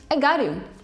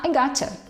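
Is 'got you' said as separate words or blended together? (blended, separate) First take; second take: separate; blended. First: Got and you are said as separate words. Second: Got and you blend into one word, gotcha. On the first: "Eu entendi" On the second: "Então você pode falar I gotcha"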